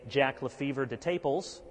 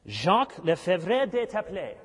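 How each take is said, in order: First: The name is pronounced with English sounds. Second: The name is pronounced with French sounds. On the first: "We might say" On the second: "I think that's the French pronunciation"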